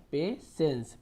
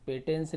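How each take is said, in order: First: पेशेंस with an s sound, "pe-sens"; taught pronunciation. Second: पेटेंस with a hard t, "pe-tens"; wrong pronunciation. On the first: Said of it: "स उच्चारण कर रहे हैं". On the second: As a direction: misread it as पेटेंस, voicing the t. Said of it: "पेटेंस नहीं पढ़ रहे". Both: Shown as a demonstration.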